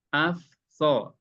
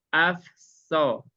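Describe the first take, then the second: First: The sounds are kept clearly separate. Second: The sounds run together and blend. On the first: "udah terpisah itu" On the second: "Yang nyampur itu gini"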